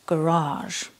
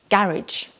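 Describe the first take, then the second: First: It is said with an American accent. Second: It is said with a British accent.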